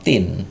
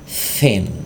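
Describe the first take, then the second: First: The word starts with a plain t sound. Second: The word starts with a hissing th sound. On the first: The speaker calls it wrong. "so not thin, no" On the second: The speaker calls it right. "but thin"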